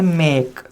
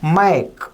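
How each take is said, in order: First: The vowel is one steady e sound. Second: The vowel glides from a to e. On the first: The speaker calls it wrong. "क्योंकि हम इस ए का sound ए ले रहे हैं।" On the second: The speaker calls it right. "इसका आधा अ और ए साउंड लिया जाएगा तो नेटिव स्पीकर"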